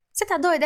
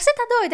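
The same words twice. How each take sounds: First: Said in the usual way. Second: Sudden high, loud "Você tá doida?"; incredulous outburst. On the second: Retold or imitated. Rachel to Ian, who hid the secret: loud incredulous outburst. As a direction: fire it back in disbelief, much higher and louder.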